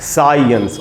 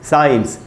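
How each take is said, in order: First: It is said with a weak vowel before 'ns'. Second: It is said without a weak vowel before 'ns'. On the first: The speaker calls it right. "आधा अ भी है ... इसको पढ़ना है साइंस" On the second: The speaker calls it wrong. "हम लोग इसको बोलते हैं साइंस ... बिल्कुल गलत उच्चारण है"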